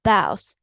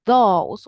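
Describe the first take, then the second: First: Those as "thows", Birmingham style; Birmingham vowel. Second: Those with a British O sound. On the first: Teacher explaining Birmingham those, ow vowel. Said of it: "but in Birmingham". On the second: Teacher explaining British those, O sound. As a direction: say those with a long oh vowel. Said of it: "British English is going to say". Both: Shown as a demonstration.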